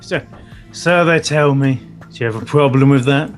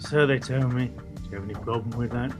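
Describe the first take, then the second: First: It is said loudly. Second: It is said quietly.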